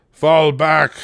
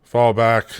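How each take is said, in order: First: Loud urgent retreat call; shouting orders over battle. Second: Said in the usual way. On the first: Real, not acted. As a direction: yell it across the field. Commanding troops in a siege.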